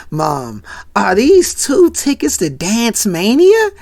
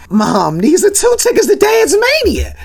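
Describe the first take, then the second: First: Hushed "Mom" rising into a questioning voice; stunned disbelief. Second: Very high, mock-hysterical excited squeal; overjoyed outburst. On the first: Retold or imitated. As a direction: act a son slowly realizing, building in disbelief. Acted stunned son seeing tickets. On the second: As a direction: play an overexcited son squealing at his mom. Acted son overjoyed at tickets.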